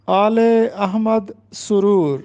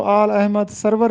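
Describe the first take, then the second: First: آل احمد سرور said aal-e ahmad suroor; درست تلفظ. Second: سرور in آل Ahmad سرور said sarvar, with a v; رائج غلط تلفظ. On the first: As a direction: say سرور as su-ROOR, linking آل with 'e'. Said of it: "جبکہ اس کا درست تلفظ ہے". (آلِ احمد سرور میں سُرُور) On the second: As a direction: say آل Ahmad سرور as aal ahmad SAR-var. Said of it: "اکثر طالب علم اس کو". (آل احمد سرور میں سَروَر) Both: Shown as a demonstration.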